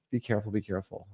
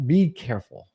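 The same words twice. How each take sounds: First: Softer and softer each time; fading quiet repeat. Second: Said in the usual way. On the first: Shown as a demonstration. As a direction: let the warning fade out. Repeats warning, fading away.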